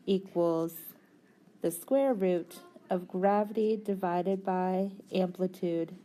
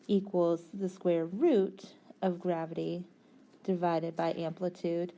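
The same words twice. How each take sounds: The two takes are said the same way.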